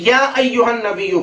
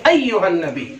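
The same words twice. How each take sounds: First: Quick अय्युहन नबिय्यु with an added या in front; rapid या अय्युहन नबिय्यु; common mistake. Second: अय्युहन नबी starting straight on 'ay', no या; correct wording. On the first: Retold or imitated. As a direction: put या before अय्युहन नबिय्यु. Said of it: "के बजाय या अय्युहन नबिय्यु कहते हैं". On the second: Shown as a demonstration. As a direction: begin अय्युहन नबी without any 'ya'. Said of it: "हालांकि ऐसा नहीं".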